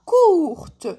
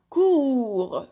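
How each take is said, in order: First: COURTE loud and higher, T released at the end; sounded final T. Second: COURS drawn out to the R, no T; silent final T. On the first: Teacher showing the feminine form, COURTE with the T pronounced. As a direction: say COURTE stretched, finishing on a clear T. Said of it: "هاد لو تي وليت ننطقه". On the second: Teacher explaining the mute T to learners, COURS without T. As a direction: say COURS slowly with the T left mute. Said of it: "est une lettre muette". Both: Shown as a demonstration.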